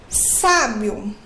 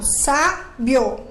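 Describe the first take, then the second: First: Said in the usual way. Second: "sábio" split into "sá" and "bio" with a pause; "sábio" in two separate beats, sá, bio; syllable by syllable. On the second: Shown as a demonstration. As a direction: break "sábio" after the strong "sá". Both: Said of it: "Então, eu falo".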